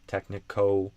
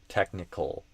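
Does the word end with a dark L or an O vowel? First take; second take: O vowel; dark L. First: It ends in an O vowel sound. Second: It ends in a dark L sound. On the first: The speaker calls it wrong. "it's almost an O vowel sound" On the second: The speaker calls it right. "what I would do is ol"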